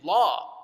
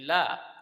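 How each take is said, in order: First: The lam is heavy, with a full mouth. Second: The lam is light, with an empty mouth. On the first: The speaker calls it wrong. "you don't say la" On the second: The speaker calls it right. "all other lams are going to be empty mouth"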